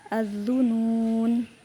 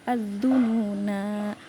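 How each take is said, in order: First: The word ends abruptly on a consonant. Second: The word ends with a drawn-out long vowel. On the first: The speaker calls it wrong. "bukan az-zunun" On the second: The speaker calls it right. "Az-zununa harus panjang"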